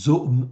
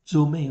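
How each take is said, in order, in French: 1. Il se dit en une syllabe qui finit par m. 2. Il se dit en deux syllabes qui finissent par é. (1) "zoom ou plutôt zomé" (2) "en grec, on prononce zomé"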